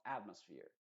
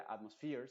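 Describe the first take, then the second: First: Atmosphere with strong AT, falling end; stress on AT. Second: Atmosphere with a weak AT and rising end; wrong stress, AT weakened. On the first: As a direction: hit AT in atmosphere and let sphere fall. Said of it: "sino atmosphere". (atmosphere con AT fuerte y final descendente) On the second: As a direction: say atmosphere without punching AT. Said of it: "no se diría atmosphere". (atmosphere sin fuerza en AT, final ascendente) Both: Shown as a demonstration.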